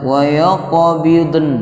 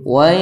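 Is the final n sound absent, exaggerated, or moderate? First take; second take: exaggerated; moderate. First: The final n sound is overdone and drawn out. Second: The final n sound is heard lightly. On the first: The speaker calls it wrong. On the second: The speaker calls it right. "yang betul"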